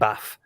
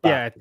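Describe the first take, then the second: First: The final sound is an F sound. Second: The final sound is a TH sound. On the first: The speaker calls it wrong. "the T H sound I would pronounce with a double F" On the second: The speaker calls it right. "instead of"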